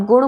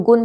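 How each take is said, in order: First: गुण with the tongue curled back on ण; retroflex ण. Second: गुण said as "gun" with dental n. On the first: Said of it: "लेकिन अगर आप गुण बोलोगे". (गुण में मूर्धन्य ण) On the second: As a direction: end गुण on a plain न. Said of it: "बच्चा ना ही लिखेगा". (गुण को गुन जैसा) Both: Shown as a demonstration.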